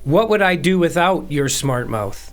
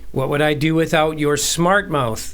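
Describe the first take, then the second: First: The stress is on "without". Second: The stress is on "smart".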